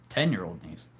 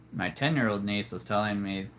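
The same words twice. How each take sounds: First: Fixing the niece's age; self-correction. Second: Said in the usual way. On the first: Real, not acted. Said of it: "uh, sorry". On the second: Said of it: "So many nieces".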